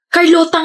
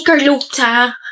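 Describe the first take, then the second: First: "Carlota" pronounced properly as kar-LO-ta; correcting someone, "Carlota" with a plain t. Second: "Carlota" with the t turned into ch; mispronounced Carlota. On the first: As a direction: say "Carlota" with a clean t in the last syllable. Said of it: "Kasi ganyan mo binabanggit yung pangalan ko". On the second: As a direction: say "Carlota" as kar-LOT-cha. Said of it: "Carlota nga sabi, hindi Carlota". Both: Shown as a demonstration.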